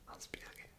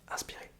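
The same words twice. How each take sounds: First: The word is spoken slowly. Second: The word is spoken quickly. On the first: "On va commencer par le slow cette fois-ci" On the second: "en mode fast"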